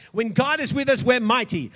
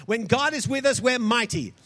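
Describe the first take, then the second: No difference in how they are said.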